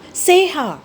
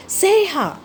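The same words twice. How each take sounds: First: Raised calling shout, higher. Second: Even higher, more desperate call; higher second shout. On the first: Mouse shouting for lost friend amid rubble, calling shout. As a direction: call her name out into the chaos. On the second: Mouse calling again for lost friend, higher desperate shout. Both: A narrator's reading. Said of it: "I shouted".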